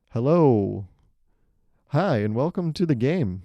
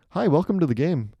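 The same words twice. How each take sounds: First: Bright game host welcome; host greeting. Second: Louder, higher announcer welcome; game host intro. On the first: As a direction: greet the players like a show host. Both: Shown as a demonstration. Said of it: "that's how you start a game".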